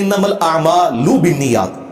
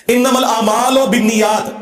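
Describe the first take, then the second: First: "आमालु" said slowly as a'maa-lu, ending in a clear U; maruf vowels. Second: "आमालु" drawn out slowly as aamaa-lo, ending in O; majhul vowels. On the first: Correcting the scholars' hadith reading, slow "आमालु" ending in U. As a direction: recite slowly, closing "आमालु" on a pure U. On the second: Mimicking how scholars misread the hadith, slow "आमालु" ending in O. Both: Shown as a demonstration. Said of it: "ये लफ्ज ही गलत है".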